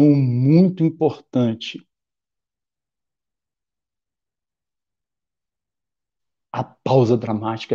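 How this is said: There is a pause before the second sentence. The speaker calls it right. "Vou fazer uma pausa dramática agora"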